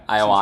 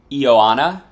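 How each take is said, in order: First: Ioana said as eye-oh-AH-na; "Ioana" opening on eye-oh; attempted name pronunciation. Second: Ioana said as ee-oh-AH-na; "Ioana" opening on ee-oh; attempted name pronunciation. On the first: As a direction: start Ioana with an EYE sound. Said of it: "something like that". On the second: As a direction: start Ioana with an EE sound. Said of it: "not sure how to pronounce it". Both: Shown as a demonstration.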